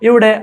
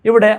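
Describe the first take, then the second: Both takes have the same delivery.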